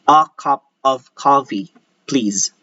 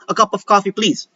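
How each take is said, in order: First: Every syllable is said clearly and fully. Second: The syllables are slurred and run together. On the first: The speaker calls it right. "we're hitting every syllable properly" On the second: The speaker calls it wrong. "we don't do"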